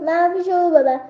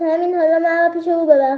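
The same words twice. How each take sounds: First: Lion shouts to be led there, "او" stressed; shouted order. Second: A mild roar, مرا pushed out loudest with a falling end; lion roars an order, "مرا" hit hard; roaring command. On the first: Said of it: "با فریاد به بلندی گفت". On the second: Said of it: "نعره کشید و گفت". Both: Acted.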